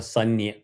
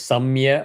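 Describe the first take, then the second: First: A full n sound comes before the ya. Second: A full m sound comes before the ya. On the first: "or Sanya" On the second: "is not chanted as Samya"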